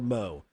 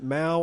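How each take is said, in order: First: The vowel sounds like 'oh' in go. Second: The vowel sounds like 'ow' in cow. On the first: "Is it Mao or Mo?" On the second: "Is it Mao or Mo?"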